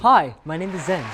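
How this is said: It is spoken with a smile in the voice. The speaker calls it right. "You got to smile while you're speaking"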